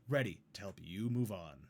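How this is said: The pitch drops and sounds creaky, muddled. The speaker calls it wrong. "I'm dropping it, and it starts to get a little muddled there"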